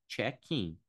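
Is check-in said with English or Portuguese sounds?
English. It is said with English sounds. The speaker calls it right. "mas no inglês é check-in"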